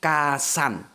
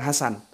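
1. Namanya dimulai dengan bunyi K yang keras. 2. Namanya dimulai dengan bunyi H yang berdesah. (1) "tapi Kasan" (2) "Orang Jawa nggak bisa bilang Hasan"

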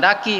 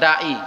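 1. Konsonan di tengah itu bunyi k yang jelas. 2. Konsonan di tengah itu bunyi kerongkongan, bukan k. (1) "karena kita tidak punya konsonan ain, maka kita bilang daki" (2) "bahasa Arabnya dai"

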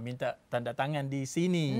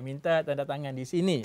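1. ประโยคนี้พูดช้า ๆ ทีละคำ 2. ประโยคนี้พูดด้วยความเร็วปกติในการสนทนา

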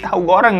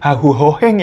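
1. Diucapkan dengan jelas, konsonannya tegas dan wajar. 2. Diucapkan seperti sambil mengunyah makanan panas di mulut. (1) "Tahu goreng maksudnya" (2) "Berasa lagi ngomong sambil makan hahu hoheng ya, panas-panas"

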